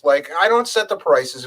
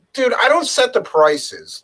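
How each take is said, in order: First: Said in the usual way. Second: "don't" pushed high and slow, fed up with the rider; exasperated retort. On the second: Retold or imitated. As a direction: spell out "Dude, I don't set the prices" slowly and in disbelief.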